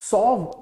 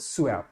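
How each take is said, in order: First: The word sounds like 'sov'. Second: The word sounds like 'su-ev'. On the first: The speaker calls it wrong. "इसको सॉव pronounce मत करना आप लोग" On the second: The speaker calls it right. "इसको क्या बोलते हैं"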